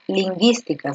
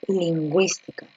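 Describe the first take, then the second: First: "lingüística" as leen-GEES-tee-ka, without the w; u silent. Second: "lingüística" as leen-GWEES-tee-ka, with the w; u pronounced. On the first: Teacher explains dieresis with the wrong reading, ü silent in "lingüística". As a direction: leave the ü of "lingüística" unspoken. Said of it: "tú no vas a leer". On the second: Teacher explains dieresis with the right reading, ü sounded in "lingüística". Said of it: "sino tú vas a leer". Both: Shown as a demonstration.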